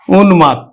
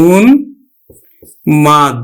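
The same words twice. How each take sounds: First: Said in the usual way. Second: উন্মাদ stretched very slowly, ন held into ম; slow careful model of উন্মাদ; slow teaching demo. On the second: Shown as a demonstration. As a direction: draw out উন্মাদ for the students. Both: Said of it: "আমরা উচ্চারণ করব কিন্তু".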